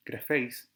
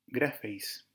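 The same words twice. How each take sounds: First: Grafeis with the accent on FEIS; stress on second syllable. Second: Grafeis with the accent on GRA; stress on first syllable. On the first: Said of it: "en la segunda sílaba". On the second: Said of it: "lleva su acento en la primera sílaba". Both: Shown as a demonstration.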